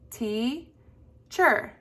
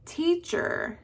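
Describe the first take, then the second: First: Teacher split as TEA, pause, CHER; teacher pulled apart syllable by syllable; broken into syllables. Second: Teacher with TEA high, CHER falling; teacher said whole, high TEA; accent on first syllable. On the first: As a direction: stretch teacher into two separate beats. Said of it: "break up the word". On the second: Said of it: "voice go up on". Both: Shown as a demonstration.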